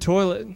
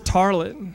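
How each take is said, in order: First: The first vowel sounds like 'oy'. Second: The first vowel sounds like 'ar'. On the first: "the word toilet" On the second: "He says tarlet"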